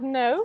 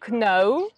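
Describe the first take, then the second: First: It starts with an n sound. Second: It starts with a k sound. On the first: The speaker calls it right. "instead of no" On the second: The speaker calls it wrong. "students like pronounce them like kno"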